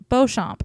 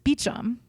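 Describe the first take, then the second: First: The surname is said in a French way. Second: The surname is said in an English way. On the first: "in Beauchamp in French" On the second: "But in English, it's Beecham"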